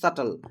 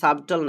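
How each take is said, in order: First: No 'b' sound is heard before the 't'. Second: A 'b' sound is heard before the 't'. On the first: The speaker calls it right. "কিন্তু এটা উচ্চারণ হবে সাটল" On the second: The speaker calls it wrong. "এটা সাবটল না"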